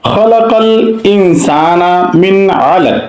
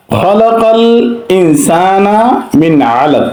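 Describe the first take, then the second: First: Slow recitation with a clear, separated nun in মিন; slow tajweed reading, izhar on মিন; Quran recitation demo. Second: মিন আলাক read again with the nun clear before ain; reciting মিন আলাক, nun not merged; recitation repeated. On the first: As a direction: recite মিন আলাক with the nun kept distinct. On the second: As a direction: repeat the tajweed example. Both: Shown as a demonstration. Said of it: "এখানে পড়তে হবে মিন আলাক".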